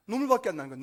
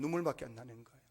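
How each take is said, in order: First: "눈물밖에" pushed out strongly, then falling; emphatic. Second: Low, soft repeat of "눈물밖에"; subdued echo. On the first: Preacher stressing Hannah's misery to the congregation, emphatic "눈물밖에". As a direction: lean hard on "눈물밖에". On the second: Preacher repeating Hannah's misery to the congregation, subdued and low. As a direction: let "눈물밖에" sink low and quiet. Hushed repeat of the same words. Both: Real, not acted.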